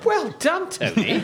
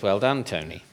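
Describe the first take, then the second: First: It is said with a tone of surprise. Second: It is said plainly, without any surprise. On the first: The speaker calls it right. "With surprise" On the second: The speaker calls it wrong. "don't say it like that"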